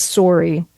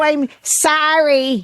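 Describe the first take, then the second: First: "sorry" with a rounded first vowel, like "sore-ee"; Canadian-style sorry. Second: "sorry" drawn out with an open "sah-ree" vowel; slow, higher-pitched "sorry" said as "sah-ree"; exaggerated American sorry. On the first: Shown as a demonstration. Telling friends how everybody says it, "sorry" as "sore-ee". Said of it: "everybody says sorry". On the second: Answering puzzled locals, overdone "sorry" as "sah-ree". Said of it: "What the fuck is that?".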